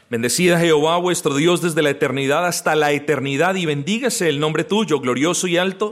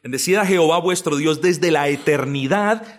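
First: Reads the verse aloud at a brisk pace; quick scripture reading. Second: The verse repeated at a steadier pace for emphasis, leaning on "Bendecid"; slower emphatic repeat. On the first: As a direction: run through the Bible verse quickly, as a reading. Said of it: "se los leo". (lectura rápida del versículo) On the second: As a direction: repeat the verse deliberately so it sinks in. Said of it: "es decir". (repetición enfática y pausada) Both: Shown as a demonstration.

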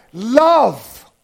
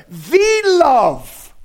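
First: "Love" alone, drawn out and emphatic; stress on LOVE. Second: "the" said as a long, emphatic "thee" before "love"; stress on THE. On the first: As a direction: land hard on "Love" as the key word. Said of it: "The first word is what?". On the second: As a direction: hit the article "the" as "thee", then "love". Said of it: "he puts the article there". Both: Shown as a demonstration.

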